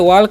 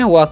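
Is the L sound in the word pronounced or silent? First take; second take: pronounced; silent. First: The word is said with an audible L. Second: The word is said with a silent L. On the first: The speaker calls it wrong. "वॉक नहीं पढ़िएगा" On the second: The speaker calls it right. "यहाँ पर एल silent होता है"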